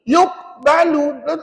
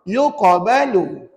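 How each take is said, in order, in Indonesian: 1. Bunyi q sama sekali tidak bergetar. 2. Bunyi q bergetar dengan kekuatan sederhana. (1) "langsung tak bunyi total" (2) "bunyinya yang betul"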